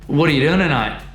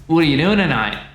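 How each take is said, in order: First: The t becomes d and the words blur together. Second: The same.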